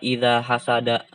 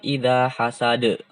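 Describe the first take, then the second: First: The last word ends with a vowel sound. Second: The last word ends with a consonant sound. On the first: The speaker calls it wrong. "Bukan idza hasada. ... itu salah" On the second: The speaker calls it right. "Ketika berhenti"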